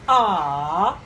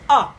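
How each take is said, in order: First: The pitch dips low, then rises. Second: The pitch drops sharply from high to low. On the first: "falling and rising" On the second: "a sharp one, the falling tone"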